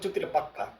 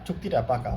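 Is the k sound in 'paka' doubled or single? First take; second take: doubled; single. First: The k sound in paka is doubled. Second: The k sound in paka is single. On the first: Extra emphasis that the deal is final. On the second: A plain statement that the deal is final.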